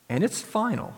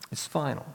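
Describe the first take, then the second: First: "final" lifted high to hammer it home; emphatic and final. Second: "It's final" dropped much softer, falling; quiet and final. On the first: Preacher warns the congregation, stressing final high. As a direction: rise sharply on "and it's final", landing hard on "final". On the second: Preacher repeats the verdict to the congregation, quietly and grave. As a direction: let "It's final" sink, soft and grave. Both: Real, not acted.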